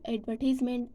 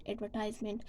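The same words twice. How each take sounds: First: "advertisement" with tize as in eyes; American "advertisement", ad-ver-TIZE-ment. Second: "advertisement" in British pronunciation. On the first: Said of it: "American pronounce as". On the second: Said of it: "British pronounce as". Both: Shown as a demonstration.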